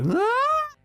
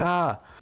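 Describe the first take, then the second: First: It rises into a high, loud scream. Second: It is a normal, calm sound. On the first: "rose into" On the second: "started off as like a normal"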